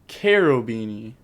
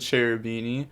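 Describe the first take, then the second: First: The name begins with a 'k' sound. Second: The name begins with a 'ch' sound. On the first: The speaker calls it right. "It's actually Carobini or something like that" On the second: The speaker calls it wrong. "I was told I was saying this wrong"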